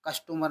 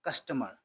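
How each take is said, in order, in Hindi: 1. दूसरे शब्दांश में पूरा o स्वर है। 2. दूसरे शब्दांश में छोटा, हल्का स्वर है। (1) "कस्टमर नहीं" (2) "ओ की जो आपको आवाज साउंड निकालनी है वो हाफ निकालनी है"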